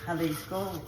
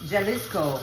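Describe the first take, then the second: First: The word begins with a breathy H sound. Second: The word begins with a hard J sound. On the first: The speaker calls it right. "we say Jalisco" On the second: The speaker calls it wrong. "we don't say Jalisco"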